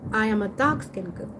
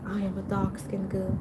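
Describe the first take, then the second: First: The voice sounds brighter and less sad. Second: The voice sounds sad and depressed. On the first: The writer has grown more at ease with herself. "she's not as depressed" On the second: The writer feels hopeless about herself. "You could tell the tone is depressing"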